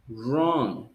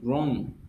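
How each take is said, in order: First: The word begins with a plain R sound. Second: The word begins with a W sound. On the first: The speaker calls it right. "You pronounce only the letter R" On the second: The speaker calls it wrong. "You don't pronounce the W. You don't say wrong"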